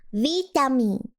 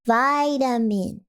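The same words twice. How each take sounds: First: Vitamin with "vee" as in "see"; vitamin said VEE-tamin. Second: Vitamin with "vy" as in "my", slow; vitamin said VY-tamin. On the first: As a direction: say Vitamin with a long ee, falling. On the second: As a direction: say Vitamin with a long eye sound, drawn out. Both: Shown as a demonstration. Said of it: "is it vitamin or vitamin?".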